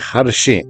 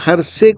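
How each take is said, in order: First: The middle consonant is an 'sh' sound. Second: The middle consonant is a plain 's' sound. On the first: "आप समझ लीजिए हर्षे" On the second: "बहुत बहुत सा उच्चारण शा अक्षर का सा से भी होता है"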